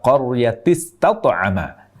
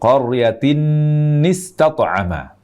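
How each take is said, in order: First: The n sound is dropped between the words. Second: The n sound is doubled between the words. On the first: "terbaca tanpa tanwin" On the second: "tertambahi dengan nun lagi"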